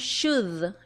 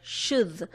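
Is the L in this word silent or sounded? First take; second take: silent; silent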